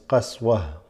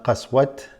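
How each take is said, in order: First: The word ends with a soft h sound. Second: The word ends with a t sound. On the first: The speaker calls it right. "This ta is basically read as a ha if you're going to stop" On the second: The speaker calls it wrong. "not qaswat"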